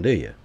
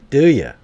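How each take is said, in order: First: Said in the usual way. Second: Louder and higher, pressing the question; a gamer loudly challenging his viewers; loud insistent repeat. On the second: Real, not acted. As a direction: demand an answer this time.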